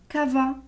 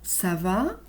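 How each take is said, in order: First: The first consonant sounds like a k. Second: The first consonant sounds like an s. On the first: The speaker calls it wrong. "je ne peux pas dire cava" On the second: The speaker calls it right. "pour entendre le son C"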